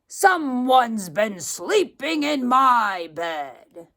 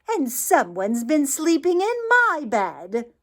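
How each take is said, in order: First: It is said in a great, huge voice. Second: It is said in a medium-sized voice.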